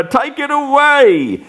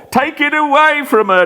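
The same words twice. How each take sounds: First: High pleading echo; desperate repeat. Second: High, desperate, away stressed; panicked plea. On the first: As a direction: plead once more, fading. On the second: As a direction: beg them to take it away. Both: Acted. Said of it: "Next he cries".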